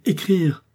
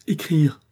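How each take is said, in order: First: Louder, higher anguished cry; rising cry of despair. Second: A loud anguished cry; cry of despair. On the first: Husband cries out again, higher, in despair. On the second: Husband cries out at the word, in despair. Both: Acted. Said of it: "cria-t-il".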